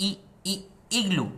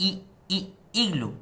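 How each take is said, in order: Both takes have the same delivery.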